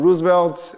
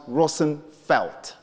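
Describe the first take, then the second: First: "Roosevelt" with ROOZ first and VELT last; "Roosevelt" in two main beats, rooz-velt; bastardized Dutch name. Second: "Rosenfeld" in three parts, the Dutch way; original Dutch pronunciation. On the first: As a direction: say "Roosevelt" the anglicized way. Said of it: "is a bastardized Dutch name". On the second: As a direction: say "Rosenfeld" as ROSS-en-felt. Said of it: "in real sense is pronounced". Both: Shown as a demonstration.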